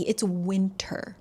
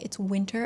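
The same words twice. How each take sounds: First: Drawn out and softer, leaning on winter; slow emphatic. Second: Said in the usual way. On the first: Shown as a demonstration. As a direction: stretch "winter" slowly for weight.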